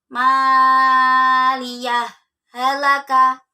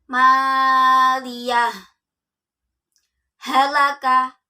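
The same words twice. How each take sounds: First: The words are joined without any break. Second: A full stop with a break separates the words. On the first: "Ketika wasol" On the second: "Ketika waqaf"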